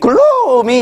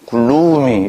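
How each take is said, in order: First: The word sounds bright and cheerful. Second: The word sounds dark and gloomy. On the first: The speaker calls it wrong. "이걸 어떤 놈이 글루미 이렇게 하고 다니진 않는 거라고" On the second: The speaker calls it right. "요건 입이 안 벌어진다고. 더러운 단어라"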